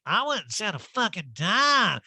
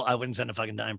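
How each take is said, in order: First: High, slow mock-outraged drawl; hammed-up indignant impersonation; Erica. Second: Said in the usual way. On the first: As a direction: stretch it out as a swooping caricature. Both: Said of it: "And Erica's like".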